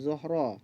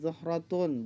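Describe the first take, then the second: First: The word ends with a short -ah sound. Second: The word ends with a full -tun syllable. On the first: This is the form as it is read aloud. "bacanya zuhra" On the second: This is the form as it is written. "Tulisannya zahratun"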